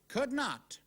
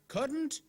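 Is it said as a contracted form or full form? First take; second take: full; contracted. First: It is said as two separate full words. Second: It is said as one contracted word. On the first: "the other way to write it" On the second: "There's a letter missing"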